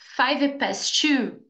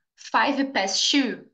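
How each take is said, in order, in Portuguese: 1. Só um som de T é pronunciado. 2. Só um som de T é pronunciado.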